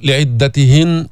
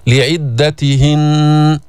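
First: لعدتهن ending on a short ن; stop without ghunna. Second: لعدتهن slow, final ن hummed long; ghunna held at the stop. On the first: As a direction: cut لعدتهن short with no nasal hold. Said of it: "ما فيك تقول لعدتهن وتوقف". (لعدتهن بوقف دون غنة) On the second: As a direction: hold the nasal ن ending لعدتهن. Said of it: "هكذا". (لعدتهن بغنة مطولة عند الوقف) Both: Shown as a demonstration.

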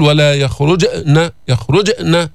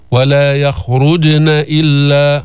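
First: يخرجن broken by a glottal stop after ج; wrong hamza after jeem. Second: يخرجن slow, ج lightly bounced straight into ن; light jeem qalqala. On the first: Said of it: "مثل كأنك عم تنقص أو عم تعمل همزة". (يخرجن بهمزة زائدة بعد الجيم) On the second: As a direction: recite يخرجن with a small echo on ج, no break. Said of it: "حصلت بكفة". (يخرجن بقلقلة الجيم دون همزة) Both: Shown as a demonstration.

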